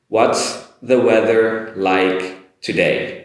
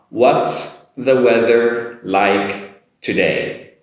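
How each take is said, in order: First: The sentence is said slowly and carefully. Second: The same.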